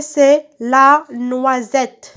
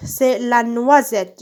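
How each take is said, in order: First: La noisette very slow, NOI and SETTE stretched; slow sounding-out. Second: Said in the usual way. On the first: Shown as a demonstration. Teacher answering what the picture is, slow sounding-out. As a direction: draw out each syllable of la noisette.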